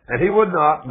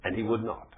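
First: Louder, higher, hammering the line; preacher hammering the point, loud; emphatic repeat. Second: Said in the usual way. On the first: Real, not acted. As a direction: drive it home to the congregation.

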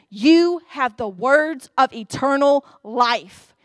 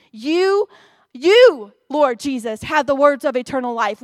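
First: Said in the usual way. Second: "You, you" punched hard and loud, then the rest firm; stress on you. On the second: Shown as a demonstration. Preacher driving home Peter's confession to congregation, "You" stressed loud. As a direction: hammer home "You" twice before "Lord Jesus". Preacher repeats the verse emphatically.

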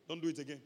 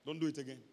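No difference in how they are said.

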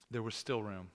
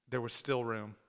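First: Quieter, lower repeat of still room; soft echo. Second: Said in the usual way. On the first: Shown as a demonstration. Pastor echoing the line softly to the congregation. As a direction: let still land softly the second time. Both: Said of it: "repeats the line for emphasis".

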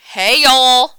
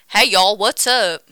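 First: Shouted greeting. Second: Said in the usual way. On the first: Pretend. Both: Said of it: "Welcome back to Exaggeration Station".

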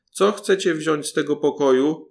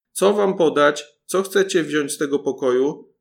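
First: Called out loud to the thieves. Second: Louder, higher yell of the same question; even louder shout. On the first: Paluszek calls loudly from the priest's room, loud call. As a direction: shout it across the room. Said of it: "zawołał, jak mógł, najgłośniej". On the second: Paluszek shouts louder on purpose to wake the cook, full yell. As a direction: bellow it so the whole house hears. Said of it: "krzyknął jeszcze głośniej". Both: A narrator's reading.

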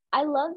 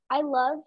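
The two takes are said the same way.

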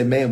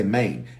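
First: Said in the usual way. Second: "Maine", man said with a long ay vowel; Memphis pronunciation of man. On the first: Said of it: "we don't say man". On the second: Shown as a demonstration. Showing listeners how Memphis talks, man pronounced "Maine". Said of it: "we say Maine".

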